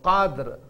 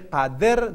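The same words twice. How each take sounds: First: The final d ends with no added vowel. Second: A short i vowel follows the final d. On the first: The speaker calls it right. "So qadr" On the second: The speaker calls it wrong. "If we say qadr, then we give kasra"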